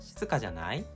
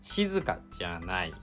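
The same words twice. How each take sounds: First: The じゃ part is not dropped low. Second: The じゃ part is said low and quiet.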